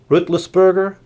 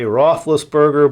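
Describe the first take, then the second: First: The name is said with German-style pronunciation. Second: The name is said with English-style pronunciation. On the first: The speaker calls it right. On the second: The speaker calls it wrong.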